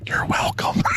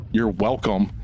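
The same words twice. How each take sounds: First: Unvoiced mock whisper. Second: Said in the usual way. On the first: Dad whispering to the camera, a playful whisper. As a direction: breathe it like a secret to the camera. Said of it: "He then whispers to the camera". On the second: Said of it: "He then whispers".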